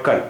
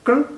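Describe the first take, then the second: First: कल with short a clearly sounded; full vowel after k. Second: कल squeezed to k straight into l; no vowel after k. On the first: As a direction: give कल its vowel between k and l. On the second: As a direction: drop the a from कल. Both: Shown as a demonstration. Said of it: "दोनों का फ़र्क समझ रहे हैं".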